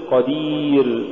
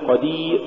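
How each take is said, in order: First: Said in the usual way. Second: قدير with the final ر choked off; cut-off ra. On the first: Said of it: "قل". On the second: Shown as a demonstration. Teacher showing what not to say, ra chopped from قدير. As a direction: stop قدير dead on the long "ee". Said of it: "ولا تقل".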